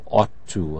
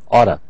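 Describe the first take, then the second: First: The two words are said fully and separately. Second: The two words blend into one reduced form. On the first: "instead of ought to" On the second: "oughta instead of ought to"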